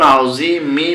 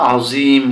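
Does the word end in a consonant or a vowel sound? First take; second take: vowel; consonant. First: The word ends with a final i vowel. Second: The word ends on the m consonant. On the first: The speaker calls it wrong. "যখন এখানে থেমে যাব আমরা তখন আজিমি বলা লাগবে না" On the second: The speaker calls it right. "আজিম বলতে হবে"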